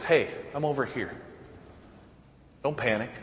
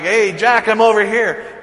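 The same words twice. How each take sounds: First: A hint of a soft, gentle call, softer; God's soft call. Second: Louder, higher call across the park. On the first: God gently calling to the panicking believer, softly. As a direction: quietly let him know you're near. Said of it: "God says". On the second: Retold or imitated. Dad calling out to his lost son in the park, louder. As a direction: call out so he can find you. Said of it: "I'm like".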